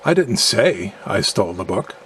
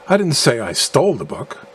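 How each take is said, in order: First: The stress falls on the word say. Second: The stress falls on the word stole. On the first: It was communicated some other way than speaking. "implying that I communicated in a manner other than speaking" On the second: The book was acquired some other way than stealing. "implying that I acquired the book by some other means than stealing"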